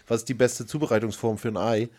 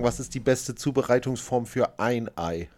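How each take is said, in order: First: The word 'ein' is unstressed. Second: The word 'ein' is stressed. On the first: It asks about preparing eggs in general. "Du hast wahrscheinlich gedacht" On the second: It asks about preparing exactly one egg. "ich habe es wahrscheinlich anders betont"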